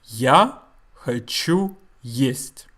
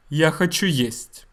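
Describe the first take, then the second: First: Slow, word by word; slow demonstration. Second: Said in the usual way. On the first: Shown as a demonstration. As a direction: say each Russian word separately and slowly. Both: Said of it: "this is how you say it".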